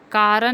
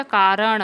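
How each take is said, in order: First: कारण ending in a dental n; wrong pronunciation. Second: कारण ending in retroflex ṇ; correct pronunciation. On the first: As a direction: say कारण as kaaran, tongue at the teeth. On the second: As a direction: say कारण as kaaraṇa, tongue curled back. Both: Shown as a demonstration. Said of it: "कारण नहीं होता".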